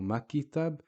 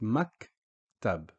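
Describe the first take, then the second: First: An 'i' vowel is inserted after the K. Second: The K stops with no vowel after it. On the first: The speaker calls it wrong. "or makitab" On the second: The speaker calls it right. "it's just maktab"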